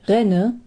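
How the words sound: Palatinate dialect, with the final n dropped.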